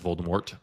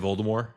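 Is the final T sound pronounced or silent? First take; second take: pronounced; silent. First: The final T sound is clearly pronounced. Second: The final T sound is left silent. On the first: This is the common everyday way people say it. "it just became so vernacular that everyone says Voldemort" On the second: This is the original intended French-style way. "They don't say the T"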